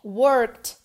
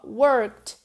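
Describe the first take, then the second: The two takes are said the same way.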